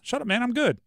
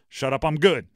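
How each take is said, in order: First: It sounds light, friendly and joking. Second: It sounds hard, cold and dismissive. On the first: He is joking around with friends. "You're looking at your friends" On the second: He is brushing off his critics. "You're looking at your haters"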